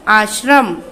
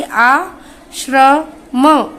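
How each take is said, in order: First: Said in the usual way. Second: आश्रम stretched very slowly, श्र clearly sounded; slow model word for children to repeat; drawn-out pronunciation. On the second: Shown as a demonstration. (आश्रम को धीरे-धीरे खींचकर) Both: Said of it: "आप सभी मेरे साथ में इसे पढ़ते जाइए".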